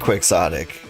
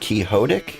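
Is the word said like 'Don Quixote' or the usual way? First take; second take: usual; Don Quixote. First: It is said the usual, common way. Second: It is said like the name Don Quixote. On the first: This is how people commonly say it. "they say quixotic" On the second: It follows the name it comes from. "isn't it quixotic? Like, it's supposed to be like Don Quixote"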